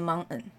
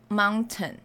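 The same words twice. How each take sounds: First: The t sound is almost inaudible. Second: The t sound is clearly pronounced. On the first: "他那个t 是轻到你几乎是没有" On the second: "那个t 的声音其实蛮明显的"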